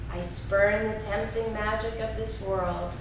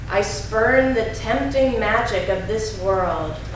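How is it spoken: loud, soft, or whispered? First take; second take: soft; loud. First: It is spoken in a softer, quieter voice. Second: It is spoken in a strong, loud voice. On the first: "And now a little softer" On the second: "first in a strong voice"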